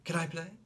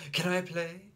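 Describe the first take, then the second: First: Put-on repeated childlike plea; eager little boy repeat. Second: Put-on high eager child question; high pleading can I play; eager little boy. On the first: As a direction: ask once more hopefully. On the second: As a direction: beg to join in. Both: A narrator's reading.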